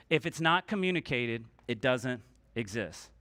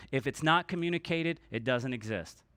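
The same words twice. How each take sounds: The two takes are said the same way.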